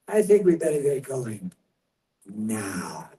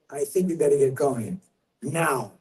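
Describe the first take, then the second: First: It is said slowly, taking time. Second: It is said quickly, without lingering.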